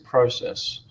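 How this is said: The word is said in an Australian accent. "In Australia we say process"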